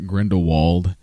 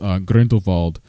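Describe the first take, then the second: First: The name is said in an American accent. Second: The name is said in a non-American accent. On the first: "and then us Americans" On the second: "For the people that have accents"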